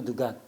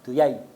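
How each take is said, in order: First: The word has a hard g sound. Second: The word has a y sound. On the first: "jimnya itu jadi G" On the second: "Dujat itu jadi duyai"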